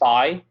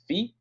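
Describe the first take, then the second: First: The word does not sound like 'fee'. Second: The word sounds like 'fee'. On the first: "or you can say phi" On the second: "the proper way is phi, like feet without the T at the end"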